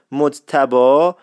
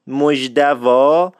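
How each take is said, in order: First: مجتبی said the standard way with a clear j sound, a little louder; careful standard مجتبی before the local variants; standard pronunciation. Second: مجدوا said very slowly with a d for the j and a v for the b, a little louder; Isfahani pronunciation. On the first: Radio host repeating the standard name, clear and careful. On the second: Radio host demonstrating the Isfahani form, slow and drawn out. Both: Shown as a demonstration.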